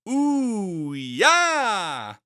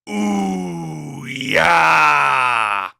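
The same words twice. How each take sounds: First: It sounds excited and eager. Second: It sounds disappointed and let down.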